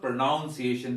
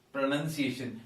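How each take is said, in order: First: 'pronunciation' wrongly voiced as 'pro-noun-ciation'; mispronunciation. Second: 'pronunciation' with 'nun', not 'noun'; correct pronunciation. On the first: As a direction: say 'pronunciation' with 'noun' in it. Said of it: "There is no pronoun". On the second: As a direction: say 'pronunciation' as 'pro-nun-see-AY-shun'. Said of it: "It is actually". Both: Shown as a demonstration.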